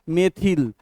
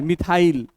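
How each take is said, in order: First: The last syllable sounds like 'ill'. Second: The last syllable sounds like 'isle'. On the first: This is the actual pronunciation. The speaker calls it right. "Actually इसका उच्चारण क्या है" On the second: This is the common local way of saying it. The speaker calls it wrong. "हम लोग कैसे बोलते हैं"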